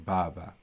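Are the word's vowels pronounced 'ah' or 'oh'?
ah. Both vowels are open 'ah' sounds. This is how eastern speakers say it. "but we would say it as bawa or baba"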